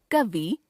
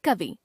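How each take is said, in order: First: कवि ending on long "ee"; mispronounced final vowel. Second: Said in the usual way. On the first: Shown as a demonstration. Teacher showing a common error, कवि with long final vowel. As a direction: stretch the end of कवि, "ka-vee". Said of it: "अशुद्ध". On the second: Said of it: "शुद्ध".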